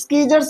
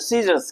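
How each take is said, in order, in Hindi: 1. s के बाद c को k की आवाज़ में पढ़ा जाता है। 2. s के बाद c साइलेंट रहता है। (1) "यहाँ पर हम स्कीजर्स नहीं पढ़ेंगे" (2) "क्या पढ़ेंगे भैया, सीजर्स"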